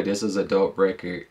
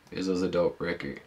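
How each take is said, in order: First: Said in the usual way. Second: "This was a dope record" repeated much softer, like a fading echo; softer repeated sign-off of the verdict. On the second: Real, not acted. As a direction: let the line fall away to a quiet afterthought.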